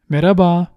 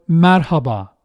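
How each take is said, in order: First: The h sound is left out. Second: The h sound is clearly pronounced. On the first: It sounds everyday and casual. "we usually do not pronounce the H" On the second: It sounds formal. "that sounds a bit too formal"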